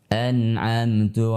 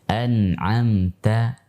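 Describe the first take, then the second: First: The final vowel sounds like u. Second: The final vowel sounds like a. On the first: The speaker calls it wrong. "bibirnya sedikit dimonyongkan sehingga menyerupai dhammah" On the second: The speaker calls it right. "kaidah mengucapkan fathah yang benar"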